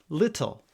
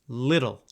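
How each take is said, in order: First: The middle t is a crisp, clear t. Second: The middle t is a quick soft tap. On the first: It does not sound especially American. "If you don't" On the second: It sounds more American. "If you want to sound a little more American"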